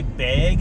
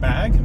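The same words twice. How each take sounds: First: The vowel sounds close to the vowel in 'egg'. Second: The vowel sounds like the vowel in 'bat'. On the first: "in Wisconsin they say bag" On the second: "instead of bag"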